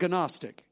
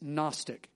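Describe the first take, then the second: First: The initial G is pronounced before the n. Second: The initial G is silent, starting with n. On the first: The speaker calls it wrong. "It's not Gnostic" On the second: The speaker calls it right. "it's Gnostic, ... a silent G"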